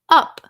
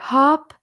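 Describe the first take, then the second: First: The word starts with a sharp glottal catch. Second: The word starts with a breathy h sound. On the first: The speaker calls it right. "you go up. And that that glottal stop" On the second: The speaker calls it wrong. "You don't go up or hop"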